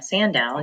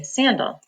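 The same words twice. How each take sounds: First: "sandal" said san-DAL, as spelt; mistaken reading. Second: Said in the usual way. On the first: Shown as a demonstration. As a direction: give "sandal" a full A in "dal". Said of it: "you don't wear a sandal". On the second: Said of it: "you wear a sandal".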